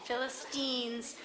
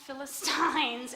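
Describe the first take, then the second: First: The last syllable is said as 'teen'. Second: The last syllable is not said as 'teen'. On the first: The speaker calls it right. "I had to write down the word T E E N" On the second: The speaker calls it wrong. "it is not Philistines, and nobody says it that way"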